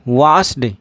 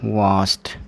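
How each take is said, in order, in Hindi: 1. शब्द का अंत d ध्वनि से होता है। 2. शब्द का अंत t ध्वनि से होता है। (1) "वास्ड नहीं, आप बिल्कुल गलत बोल रहे हैं।" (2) "आपको इसका जो उच्चारण है वो वास्ट करना होगा।"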